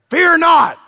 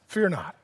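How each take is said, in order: First: It is said in a harsh, angry tone. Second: It is said in a warm, gentle tone.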